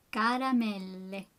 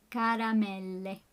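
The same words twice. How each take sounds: First: Said in the usual way. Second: "Caramelle" with the double L held long. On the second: Shown as a demonstration. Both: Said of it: "Make sure to do that L".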